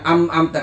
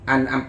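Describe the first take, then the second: First: The consonant before the second syllable is m. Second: The consonant before the second syllable is n. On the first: The speaker calls it wrong. "bukan am amta" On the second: The speaker calls it right. "an amta bukan am amta"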